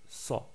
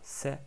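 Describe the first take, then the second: First: The s sound is heavy and emphatic. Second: The s sound is light and plain. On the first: The speaker calls it right. "mais ça" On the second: The speaker calls it wrong. "on ne dit pas"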